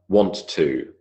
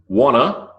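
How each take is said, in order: First: Each word is said fully and separately. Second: The words blend into a short reduced form.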